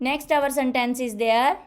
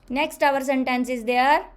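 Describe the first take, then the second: The two takes are said the same way.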